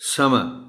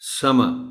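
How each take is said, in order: First: The final r is almost silent. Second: The final r is almost silent.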